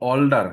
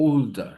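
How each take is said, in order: First: "অলডার" loud, with open aw; open aw vowel. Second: "ওল্ডার" with a long oh; rounded oh vowel. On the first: Teacher quoting the old habit, loud open-vowel "অলডার". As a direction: say "অলডার" starting on aw. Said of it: "অল বলতাম". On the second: Teacher modelling the corrected sound, slow oh in "ওল্ডার". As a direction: draw out "ওল্ডার" slowly from a rounded oh. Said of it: "এরকম ওল". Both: Shown as a demonstration.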